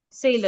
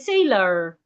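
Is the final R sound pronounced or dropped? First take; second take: dropped; pronounced. First: It ends without an R sound. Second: It ends with an R sound.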